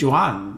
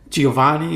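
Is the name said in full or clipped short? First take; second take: clipped; full. First: The name is said clipped, in dialect form. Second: The name is said in full, standard form. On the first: This is how the family's dialect said the name. "It was Juan, like that, you know, almost like a whole different thing" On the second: This is the standard Italian form of the name. "They didn't say Giovanni or Giovan"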